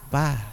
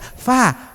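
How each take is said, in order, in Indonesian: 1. Kata itu diawali dengan bunyi p. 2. Kata itu diawali dengan bunyi f. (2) "kalau orang Jawa Barat itu paling rumit fa"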